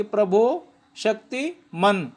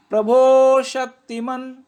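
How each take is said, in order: First: "प्रभो शक्तिमान" with "शक्ति" and "मान" split apart; the mistake to avoid; wrong phrasing. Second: "प्रभो शक्तिमान" slow and louder, "शक्तिमान" said as one unbroken word; the right way, as one word; correct phrasing. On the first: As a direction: break "शक्तिमान" into two pieces, the wrong way. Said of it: "ऐसे नहीं बोलना कि". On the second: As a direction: keep "शक्तिमान" together with no pause inside. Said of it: "तो ऐसे करके इसको बोलना है". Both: Shown as a demonstration.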